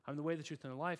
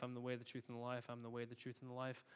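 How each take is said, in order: First: Said in the usual way. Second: Softer, murmured over and over; quiet entranced repeating; hushed repetition. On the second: Retold or imitated. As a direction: repeat it softly like a trance. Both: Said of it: "she keeps saying".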